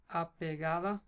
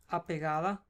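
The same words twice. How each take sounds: The two takes are said the same way.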